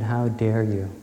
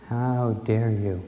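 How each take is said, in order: First: Firm, indignant challenge; retold furious demand; fury. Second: Slow, deliberate indignant repeat; slow, weighted furious echo; fury, slowed. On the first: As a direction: confront God head-on, a touch of fury. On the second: Retold or imitated. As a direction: draw out each word in retold fury. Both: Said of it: "I sat down in fury".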